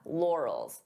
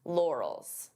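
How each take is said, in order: No difference in how they are said.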